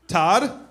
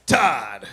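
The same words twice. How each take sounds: First: Said in the usual way. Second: Drawn-out, falling cheer; cheering name call. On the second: Real, not acted. Comic cheering audience member's name, exclaiming.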